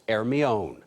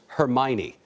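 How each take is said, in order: First: The name is said with a French pronunciation. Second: The name is said with a British pronunciation. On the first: "the French pronounce it" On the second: "The British call it"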